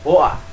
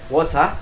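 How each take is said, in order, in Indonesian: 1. Huruf t digantikan dengan hentian glotal. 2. Huruf t di tengah jelas diucapkan. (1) "kalau di Cockney dibaca dengan woa" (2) "di Inggris yang standarnya dibaca dengan water ya"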